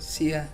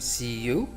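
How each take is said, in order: First: The second word is reduced to a short 'ya'. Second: The second word is pronounced fully as 'you'. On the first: "we can say see ya, like that" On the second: "Instead of saying see you"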